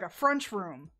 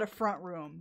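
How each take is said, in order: First: FRENCH ROOM for front room, the T turned to CH; regional pronunciation. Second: Said in the usual way. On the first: Retold or imitated. What they call the living room around here, regional pronunciation. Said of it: "They call it, like". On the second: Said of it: "they don't call it a front room".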